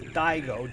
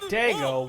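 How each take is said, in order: First: The first vowel is a gliding 'eye' sound. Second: The first vowel is a plain 'ah' sound. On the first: The speaker calls it right. "use the pronunciation right. It is Daigo, D A I G O" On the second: The speaker calls it wrong. "and not Dago"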